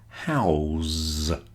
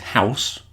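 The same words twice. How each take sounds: First: The word ends with a z sound. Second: The word ends with an s sound. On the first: It is the verb. "with a Z in it" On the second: It is the noun. "the first one is house"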